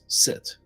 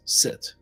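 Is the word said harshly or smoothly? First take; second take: smooth; smooth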